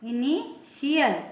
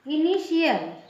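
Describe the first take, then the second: First: The middle consonant is pronounced 'sh'. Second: The same.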